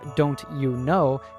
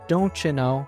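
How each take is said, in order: First: The t and y sounds stay separate. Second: The t and y blend into a cha sound. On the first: "instead of" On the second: "a fluent"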